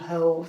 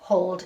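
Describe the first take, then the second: First: The vowel is long, as in 'old'. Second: The vowel is short, as in 'off'. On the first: The speaker calls it right. "It's saying hold. So it's in that O sound" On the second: The speaker calls it wrong. "It's not saying oh"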